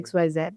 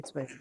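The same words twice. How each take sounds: First: The last letter is said as zed. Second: The last letter is said the American way, zee.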